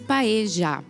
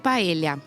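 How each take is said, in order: First: The middle consonant sounds like 'zh'. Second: The middle consonant sounds like 'ly'. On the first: This is how it is said in South America. "o L L para eles tem esse som de J" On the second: This is how it is said in Spain. "na Espanha é paella. Então o L L... tem o som como se fosse um L H"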